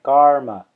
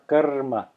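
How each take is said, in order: First: It has a long ah and English r. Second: It has a short uh and rolled r. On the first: "they will say a long ah, and they will also say an English r" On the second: "You might hear some Indians roll their r"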